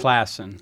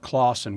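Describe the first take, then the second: First: The first vowel sounds like 'class'. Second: The first vowel sounds like 'claw'. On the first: The speaker calls it right. "just like it's spelled" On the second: The speaker calls it wrong. "We get a lot of Clausen"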